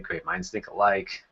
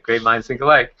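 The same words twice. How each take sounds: First: It is said in a sarcastic tone. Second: It is said in a playful tone. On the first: The remark feels adversarial. The speaker calls it wrong. "you really want to watch the sarcasm. You don't want to say" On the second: The remark celebrates shared thinking. The speaker calls it right. "You want to bring some play to it"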